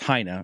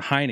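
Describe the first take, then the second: First: The name is said with a German pronunciation. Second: The name is said with an anglicized pronunciation. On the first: This is the original, technically correct pronunciation. "technically, my name is pronounced Heine, obviously German" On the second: This is the later, adopted pronunciation. "they converted it or just started to pronounce it Heine"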